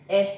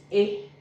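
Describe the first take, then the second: First: "E" as an open "eh" as in bet. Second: "E" as a closed "ay" without a glide. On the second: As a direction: say "E" like the é in café. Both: Shown as a demonstration. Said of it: "this E is pronounced differently from this".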